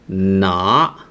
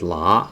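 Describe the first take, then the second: First: The syllable starts with a nasal N sound. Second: The syllable starts with an L sound. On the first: This is the mainland pronunciation. "In mainland, is pronounced with more nasal" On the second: This is an accepted Hong Kong pronunciation. "you can pronounce it as la"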